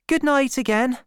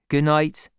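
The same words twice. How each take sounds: First: Put-on high-pitched girl saying good night; young girl's farewell. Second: Man's farewell, close to narrator's own voice; lightly voiced shepherd. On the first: Girl bidding Gabriel good night. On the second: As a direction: answer as the shepherd, lightly acted. Gabriel answers the girl. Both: A narrator's reading.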